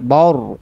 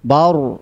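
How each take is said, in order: The two takes are said the same way.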